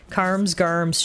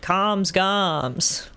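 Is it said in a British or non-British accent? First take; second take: non-British; British. First: It is said with strong R sounds. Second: It is said in a British accent.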